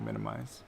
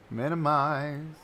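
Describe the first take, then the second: First: Said in the usual way. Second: Slow, stretched "Minimize"; playfully drawn out. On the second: Real, not acted. Streamer narrates closing a window, playfully drawn out. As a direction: stretch every syllable of the word.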